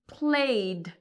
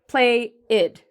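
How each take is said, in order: First: The word is said in one syllable. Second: The word is said in two syllables. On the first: The speaker calls it right. "in one smooth, continuous pronunciation" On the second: The speaker calls it wrong. "this is different from saying it as play-id"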